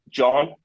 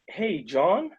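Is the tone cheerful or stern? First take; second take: stern; cheerful. First: It is said in a stern, serious tone. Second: It is said in a cheerful, excited tone.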